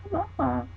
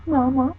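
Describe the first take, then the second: First: High, softer "mama." falling away; soft dinosaur whimper. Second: High call of mama, rising at the end; dinosaur calling mama. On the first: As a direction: let "mama." fall off quietly. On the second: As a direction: call "Mama," upward like a lost baby dinosaur. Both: Pretend.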